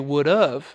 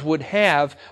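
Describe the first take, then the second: First: The word 'have' is reduced to a quick 'of'. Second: The word 'have' is pronounced fully and clearly. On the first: The speaker calls it wrong. "by saying it quickly we say would have" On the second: The speaker calls it right. "if it's written down as would have"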